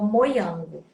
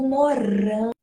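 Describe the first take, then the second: First: The r is replaced by a glide sound. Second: The word is said with an r sound. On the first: The speaker calls it wrong. "Suponhamos que ele falou moiango" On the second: The speaker calls it right. "o morango"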